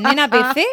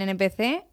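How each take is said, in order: First: "Nena P C" said louder, with "Nena" as one sung-out word; misheard slang. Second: Said in the usual way. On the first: Retold or imitated. Host jokes she misheard the slang as an insult, loud. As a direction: turn N P C into "Nena P C", louder and higher. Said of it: "y a mí me dicen". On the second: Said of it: "a mí me dicen, "Nena P C".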